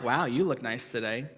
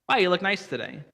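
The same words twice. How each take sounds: First: It sounds flirtatious and suggestive. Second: It sounds innocent and simply kind.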